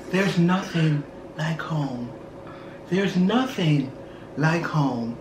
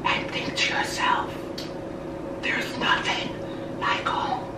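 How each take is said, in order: First: Low, slow movie-quote recital. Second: Soft, voiceless movie-quote whisper; imitated whisper. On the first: Retold or imitated. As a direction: recite it slowly and softly, with pauses. Same quote voiced after whisper. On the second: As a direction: whisper it softly into her ear. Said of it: "the lady whispered in her ear".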